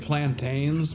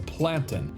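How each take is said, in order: First: The second syllable is said with a full vowel. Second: The second syllable is reduced, as in mountain. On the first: The speaker calls it wrong. "a lot of people say plantains" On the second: The speaker calls it right. "the correct pronunciation of the word is plantain, like mountain or fountain"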